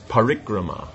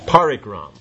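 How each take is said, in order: First: The word ends with a final a vowel. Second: The word ends on the consonant m. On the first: The speaker calls it right. "no, it's parikrama" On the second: The speaker calls it wrong. "generally how Westerners, but let's say at least Americans"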